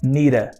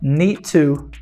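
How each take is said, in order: First: The middle consonant is a flapped R sound. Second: The middle consonant is a clear T sound. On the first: "que vira nira" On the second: "o need to virou need to"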